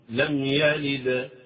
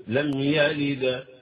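No difference in how they are said.

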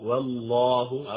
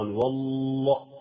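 First: The L sound is passed over quickly. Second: The L sound is held for a long time. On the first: The speaker calls it right. "والله والله هكذا مرورا مرورا" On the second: The speaker calls it wrong. "حينما تقف على اللام لا تقف كثيرا، والله لا"

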